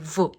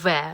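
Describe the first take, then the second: First: The consonant is said alone, with no vowel added. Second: The consonant is followed by a vowel, like 've'. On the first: The letter's sound is given, not its name. The speaker calls it right. "замість того, щоб казати В" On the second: The letter's name is given, not its sound. The speaker calls it wrong. "бо потім вони так починають читати В"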